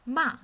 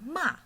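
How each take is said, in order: Both takes have the same delivery.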